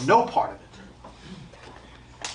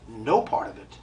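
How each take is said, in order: First: Slow whisper. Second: Said in the usual way. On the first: Acted. Medium hushing the audience, drawn-out whisper. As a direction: breathe it out, very slow and voiceless. Medium rejecting signs, repeats himself.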